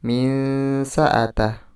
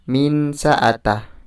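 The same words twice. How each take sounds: First: The n is hidden in a nasal hum. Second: The n is pronounced clearly. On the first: The speaker calls it right. "Yang betul yaitu" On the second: The speaker calls it wrong. "bukan min sa'atah. Itu salah"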